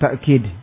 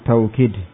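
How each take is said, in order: First: The first syllable ends in a glottal stop. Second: The first syllable has a w sound. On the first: "dengan hamzah" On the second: "dengan wawu"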